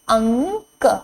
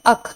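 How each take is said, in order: First: The word is said with a nasal sound. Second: The word is said without a nasal sound. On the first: The speaker calls it right. "अ के ऊपर जब ये बिंदी लग गई है" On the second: The speaker calls it wrong. "इसे हम पढ़ेंगे अक, जो कि एक गलत है"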